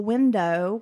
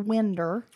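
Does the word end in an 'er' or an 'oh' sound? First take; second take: oh; er. First: The word ends in an 'oh' sound. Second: The word ends in an 'er' sound. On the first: "Instead of like a window" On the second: "we might say that's a winder"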